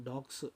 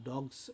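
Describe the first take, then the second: Both takes have the same delivery.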